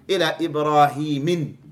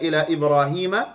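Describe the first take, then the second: First: The name ends in -in with nunation. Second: The name ends in a plain -a vowel. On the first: The speaker calls it wrong. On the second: The speaker calls it right.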